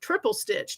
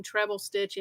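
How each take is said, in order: First: "triple" said TRIP-ul, short i, a touch higher; "triple stitch" with a clear TRIP-ul; triple, the new term. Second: "treble" said TREB-ul, short e; "treble stitch" with a clear TREB-ul; treble, the old term. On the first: Contrasting the old term, she gives the new: "triple" said TRIP-ul. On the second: Reading patterns, she recalls the old name: "treble" said TREB-ul. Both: Shown as a demonstration. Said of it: "Does anyone also remember that".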